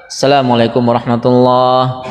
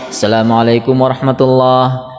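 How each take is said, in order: No difference in how they are said.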